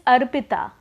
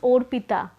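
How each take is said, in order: First: The name begins with an open 'ah' vowel. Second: The name begins with a rounded 'oh' vowel. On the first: The speaker calls it right. "this is a right pronunciation" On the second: The speaker calls it wrong. "because of mother tongue influence, many Bengali people would call me as Orpita"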